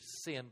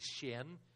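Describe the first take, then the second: First: The name begins with a plain 's' sound. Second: The name begins with an 'sh' sound. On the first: The speaker calls it wrong. "we say in English" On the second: The speaker calls it right. "in Mandarin Chinese, you say Shin"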